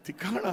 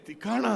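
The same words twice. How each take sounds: The two takes are said the same way.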